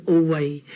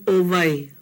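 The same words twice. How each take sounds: First: "Owai" said oh-wai; "Owai" with a W in the middle; W sound. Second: "Owai" said oh-vai; "Owai" with a V in the middle; V sound. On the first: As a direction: keep a rounded w glide in "Owai". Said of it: "I went to Ke'anai and I learned". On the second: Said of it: "I grew up saying". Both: Shown as a demonstration.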